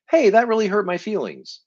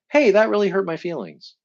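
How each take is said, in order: First: Higher, gentle but direct; demonstrating a calm honest statement of hurt. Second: Higher, gentle but direct; demonstrating telling someone they hurt you; direct and honest. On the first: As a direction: say it simply to their face. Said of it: "look at somebody and say". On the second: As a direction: say it plainly and leave it. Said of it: "maybe just say directly to them". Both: Shown as a demonstration.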